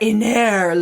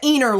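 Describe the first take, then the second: First: The name is said in a fancy, snooty way. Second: The name is said in a plain, ordinary way. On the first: The speaker calls it right. "Sounds much better" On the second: The speaker calls it wrong. "I wouldn't want to say"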